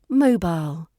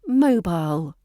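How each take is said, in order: First: It has two clear syllables. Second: The same.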